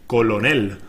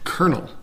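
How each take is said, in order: First: It is said as spelled, col-o-nel. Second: It is said like kernel, with no L. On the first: The speaker calls it wrong. "it looks like colonel, C-O-L-O-N-E-L" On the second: The speaker calls it right. "But no, it's pronounced colonel ... the exact same way the word kernel"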